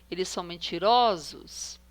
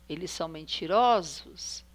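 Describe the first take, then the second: No difference in how they are said.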